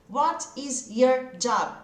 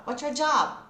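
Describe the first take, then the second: First: Each word separated, slow; slow textbook English. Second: "What's your job?" run together, sounds joined; everyday spoken English, words linked; linked speech. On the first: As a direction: spell it out word by word, slowly. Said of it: "Eu só ouvi job". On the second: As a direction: glide "What's your job?" into one chunk. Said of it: "inglês falado que vai juntando os sons". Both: Shown as a demonstration.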